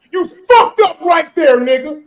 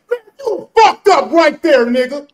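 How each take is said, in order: First: Louder, slower sing-song taunt; gleeful gotcha. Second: Loud, drawn-out taunt; gleeful gotcha. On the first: Rubbing it in to the friend who slipped, slow sing-song taunt. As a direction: drag it out to rub it in. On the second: Taunting his friend on the panel, loud and slow. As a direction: savor catching him out, louder. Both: Real, not acted.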